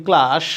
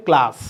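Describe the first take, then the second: First: ক্লাস ending in sh, klaash. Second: ক্লাস ending in a clean English s; crisp s closing ক্লাস, no sh; English s sound. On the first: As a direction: soften the last sound of ক্লাস to sh. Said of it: "এটা কিন্তু ভুল". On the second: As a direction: say ক্লাস as klaas, not klaash. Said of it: "এটা হচ্ছে ক্লাস". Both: Shown as a demonstration.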